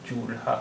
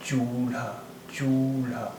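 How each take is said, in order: First: चूल्हा split as chool-haa; separate l and h. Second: चूल्हा as choo-lhaa, vowel held before joined lha; blended lha. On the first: Teacher contrasting the spellings, चूल्हा with l and h apart. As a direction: close on ल in चूल्हा before a separate हा. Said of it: "अलग-अलग आवाज़ हैं". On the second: Teacher modelling the merged sound, चूल्हा with blended lha. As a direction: draw out चू, then one blended ल्हा in चूल्हा. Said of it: "अगर ये मिली हुई". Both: Shown as a demonstration.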